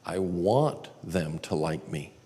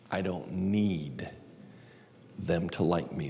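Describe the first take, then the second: First: WANT drawn out, the rest measured; slow line with a stretched, stressed "want". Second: NEED drawn out, then a pause; soft line with a stretched, stressed "need". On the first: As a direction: lean slowly on the word "want". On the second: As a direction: land slowly on "need" and stop before going on. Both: Shown as a demonstration. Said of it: "I walk through this simple exercise".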